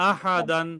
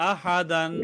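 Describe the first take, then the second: The two takes are said the same way.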